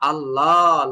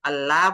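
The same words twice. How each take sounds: First: The l in Allah sounds thick and heavy. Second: The l in Allah sounds thin and light. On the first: "মোটা" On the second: "চিকন"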